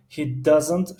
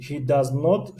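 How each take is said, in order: First: He doesn't, contracted into one syllable; short form doesn't. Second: He does not, each word separate and full; full form does not. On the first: Teacher to class, showing the short form, slow and clear. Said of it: "He doesn't شکل مختصر". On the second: Teacher to class, showing the full form, slow and clear. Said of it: "He does not شکل پره". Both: Shown as a demonstration.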